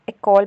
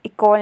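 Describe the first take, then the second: First: इकॉल said with an "e" sound at the start, as eh-kol; इकॉल opened on a clear "eh", like French école; correct pronunciation. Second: इकॉल said with a plain "i" sound at the start, as ih-kol; इकॉल with a short "ih" opening, the way not to say it; wrong pronunciation. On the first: Teacher giving students the right reading, इकॉल with "eh". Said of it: "इकॉल pronounce करेंगे". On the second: Teacher showing students the wrong reading, इकॉल with "ih". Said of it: "इकॉल नहीं". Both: Shown as a demonstration.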